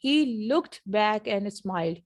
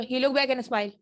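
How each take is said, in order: First: Slow "he looked back and smiled", word by word; careful reading style. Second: "he looked back and smiled" run into one phrase; quick connected speech. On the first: Teacher imitating how learners read, slow and careful. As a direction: read each word out in full, unhurried. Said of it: "अगर ऐसे पढ़ें जैसे आप पढ़ रहे हैं". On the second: Teacher showing lost sounds to learners, quick and linked. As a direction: say it fast, swallowing the endings of "looked" and "smiled". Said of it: "तेजी से बोलें". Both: Shown as a demonstration.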